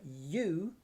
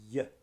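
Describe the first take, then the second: First: The word is said with its full vowel. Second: The word is said with a weak schwa vowel.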